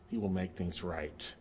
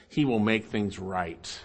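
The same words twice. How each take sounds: First: Very soft, low and slow; quiet, solemn echo; hushed assurance. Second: Slow, lowered promise; weighty, unhurried reassurance; solemn assurance. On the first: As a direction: let the promise drop almost to nothing. Hushed repeat of the promise. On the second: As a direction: stretch each word toward a firm "right". Solemn promise, then repeated softer. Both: Real, not acted.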